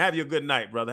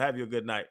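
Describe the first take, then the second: First: Said in the usual way. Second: Softer, lower trailing "Have you a good night"; soft farewell. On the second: Retold or imitated. Guest softly telling reporter good night while walking off. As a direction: let "Have you a good night" fade off gently as you walk away. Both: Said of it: "I was like".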